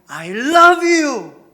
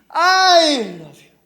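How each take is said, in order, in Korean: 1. 강세는 love에 있습니다. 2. 강세는 I에 있습니다. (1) "나는 당신을 사랑한다는 거예요. 내가 좋아하는 걸 넘어서서 사랑해" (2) "먼저 I라는 단어에게 강세를 주면은요"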